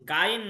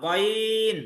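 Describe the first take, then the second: First: The first vowel is an open 'aa' sound. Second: The first vowel is a rounded 'o' sound. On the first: The speaker calls it wrong. "গাইন না" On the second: The speaker calls it right.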